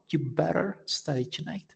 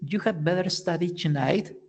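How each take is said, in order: First: The had sound is left out entirely. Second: The word had is said in full. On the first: "even uh, more informal" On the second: "instead of saying"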